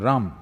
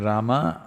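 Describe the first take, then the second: First: The North Indian form drops the final vowel. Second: The full form ends with its final vowel.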